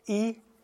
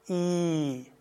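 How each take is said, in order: First: The vowel is held briefly. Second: The vowel is held about twice as long. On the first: "Erst kurz" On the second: "der zweite Vokal ist immer die Verlängerung des vorigen"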